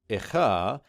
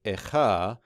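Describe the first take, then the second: First: The vowel before the kh is reduced and indistinct. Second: The vowel before the kh is reduced and indistinct.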